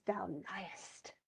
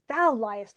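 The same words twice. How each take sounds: First: Soft, sly whisper; hushed invisible interjection; whispered taunt. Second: Lightly acted accusation, voiced out loud; mock-indignant comeback; mild indignant retort. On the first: Acted. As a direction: whisper it as if unseen. Invisible Ariel slips in a taunt. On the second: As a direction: throw the accusation back. Caliban snaps back at supposed accuser.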